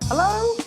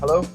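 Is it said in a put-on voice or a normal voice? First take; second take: put-on; normal. First: It is said in a put-on girl's voice. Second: It is said in his normal voice.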